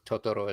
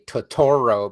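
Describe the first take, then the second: First: No syllable is stressed more than the others. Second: One syllable is stressed more than the others. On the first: "there's no accent on any of the syllables, so Totoro is correct" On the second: "The Americans say Totoro because we have to accent a syllable"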